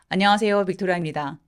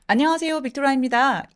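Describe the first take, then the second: First: The voice is pitched low. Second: The voice is pitched high. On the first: It sounds cold or a bit mean. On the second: It sounds friendly.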